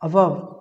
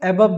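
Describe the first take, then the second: First: The first vowel sounds like 'uh'. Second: The first vowel sounds like 'ay'. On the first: "ये वास्तविक pronunciation है अबव" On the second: "एबव भी लोग पढ़ते हैं"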